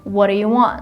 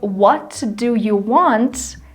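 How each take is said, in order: First: The words are linked and sounds are reduced. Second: Every word is pronounced fully and separately. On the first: "it sounds like" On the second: "Instead of"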